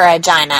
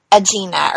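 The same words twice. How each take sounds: First: "Agina" said uh-JY-nuh, rhyming with China; long-i pronunciation. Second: "Agina" said uh-JEE-nuh, soft g and ee; soft-g pronunciation. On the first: Offering another guess at the surname, "Agina" as uh-JY-nuh. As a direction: say "Agina" with a long EYE in the middle. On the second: Reading an unfamiliar surname off the cast list, "Agina" as uh-JEE-nuh. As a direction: say "Agina" with a J sound, then EE. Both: Shown as a demonstration. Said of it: "I'm not sure how you say it".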